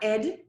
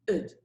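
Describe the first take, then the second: First: The ending has the vowel of 'bed'. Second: The ending has the vowel of 'bid'. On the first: The speaker calls it wrong. "It's not ed" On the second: The speaker calls it right. "it's id"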